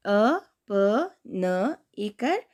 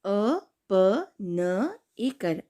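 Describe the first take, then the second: First: Slow syllable spelling. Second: Drawn-out letter by letter spelling; slow syllable spelling. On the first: Teacher repeating the spelling slowly for kids. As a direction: spell each letter clearly again. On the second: Teacher spelling a word slowly for kids. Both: Shown as a demonstration. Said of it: "अब दूसरा शब्द है".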